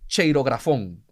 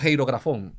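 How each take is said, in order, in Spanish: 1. La palabra empieza con un sonido 'ch'. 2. La palabra empieza con un sonido 'h' gutural. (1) "es una chi" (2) "o ji"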